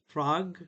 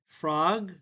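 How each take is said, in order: First: It ends cleanly on the g sound. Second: It ends cleanly on the g sound.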